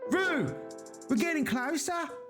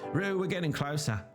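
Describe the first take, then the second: First: An attempted Australian accent that sounds Mancunian. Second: Read in the speaker's natural accent. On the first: "suddenly you turned from someone from Manchester" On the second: "I'll leave the Australian accent to you"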